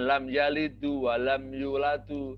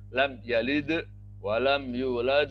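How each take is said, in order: First: The verbs end with a short u vowel. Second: The verbs end on a bare final consonant. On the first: The speaker calls it wrong. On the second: The speaker calls it right. "Ingat seperti kata lam yalid"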